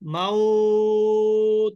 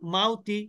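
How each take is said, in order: First: The 'aw' vowel is drawn out before stopping. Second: The 'aw' vowel is short and flows on. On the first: The reader stops on this word. "যখন আমি থেমে যাব" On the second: The word is read joined to the next. "মিলিয়ে পড়লে"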